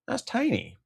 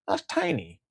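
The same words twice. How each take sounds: First: High, soft, squeaky little voice; mock tiny voice. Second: Said in the usual way. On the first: Mocking a tiny amount in a high little voice. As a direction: make it sound small and high.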